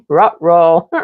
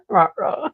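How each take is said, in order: First: Cartoon dog "rut row" with a laugh. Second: "rut row" broken up by a high laugh; squeaky laughing "rut row". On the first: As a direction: do the cartoon dog's "uh oh". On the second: Pretend. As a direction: giggle through "rut row". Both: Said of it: "one of my favorite things to say".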